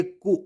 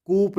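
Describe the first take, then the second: First: कू ending on an open oo; silent P. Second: कूप closing on a p; P sounded. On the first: Teacher gives the correct reading, silent P. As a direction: say कू with no final p. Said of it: "कूप नहीं पढ़ेंगे". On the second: Teacher shows how not to read it, P sounded. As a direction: misread coup as कूप. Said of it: "नहीं पढ़ेंगे". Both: Shown as a demonstration.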